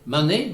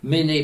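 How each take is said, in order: First: The first vowel is a, not é. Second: The vowel is é with no final consonant. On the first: This is the form used in the Vannes area. "Vante, Mané" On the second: This is the form used in most other places. "Méné partout ailleurs"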